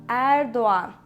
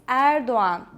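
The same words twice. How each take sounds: No difference in how they are said.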